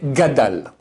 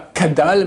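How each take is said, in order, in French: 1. Le mot commence par un son G. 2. Le mot commence par un son K. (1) "mais gadal" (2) "c'est pas kadal"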